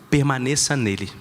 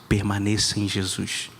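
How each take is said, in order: First: It is said in a normal voice. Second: It is said in a lower, deeper voice.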